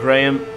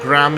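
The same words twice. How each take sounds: First: The name is said in a non-American way. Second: The name is said in an American way.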